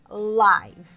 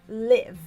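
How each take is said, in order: First: The vowel is not the short 'e'-like sound. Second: The vowel is a short, plain 'e'-like sound. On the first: Happening or broadcast in real time. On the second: To live or reside somewhere.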